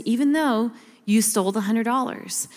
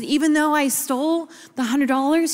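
First: "Even though you stole" as a steady statement; retold father's calm confirmation, "you stole" stated evenly; reassuring answer. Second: "Even though I stole" pitched up in disbelief; retold child's incredulous question, stress on "I stole"; doubting question. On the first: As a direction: settle "hundred dollars" downward, no question in it. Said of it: "He said". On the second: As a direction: ask "hundred dollars" as a higher, uncertain question. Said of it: "And I said".

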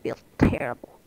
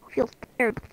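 First: Breathy whisper under the breath; voiceless aside. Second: Said in the usual way. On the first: Real, not acted. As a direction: whisper it as a private grumble. Muttered reaction, then repeated voiced.

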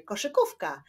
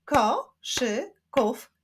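First: Said in the usual way. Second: "Koszykówka" slowly split as ko, szy, ków, ka; four slow beats on "Koszykówka"; syllable by syllable. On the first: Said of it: "wyklaszczmy sylaby w wyrazie". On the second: Shown as a demonstration. Teacher showing syllables to pupils, "Koszykówka" split in four. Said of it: "wyklaszczmy sylaby w wyrazie koszykówka".

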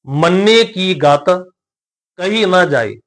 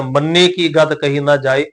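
First: Slow recitation, clear pause after ਗਤ. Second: No pause after ਗਤ, one even line; straight through. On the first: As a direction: draw out the words and rest on ਗਤ. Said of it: "ਗਤ ਸ਼ਬਦ ਤੇ ਵਿਸ਼ਰਾਮ ਦੇ ਕੇ". (ਗਤ ਤੇ ਵਿਸ਼ਰਾਮ ਦੇ ਕੇ) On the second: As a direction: run ਗਤ straight into ਕਹੀ without resting. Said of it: "ਸਿੱਧਾ ਵੀ ਉਚਾਰਨ ਕਰ ਸਕਦੇ". (ਗਤ ਤੇ ਰੁਕੇ ਬਿਨਾਂ ਸਿੱਧਾ) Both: Shown as a demonstration.

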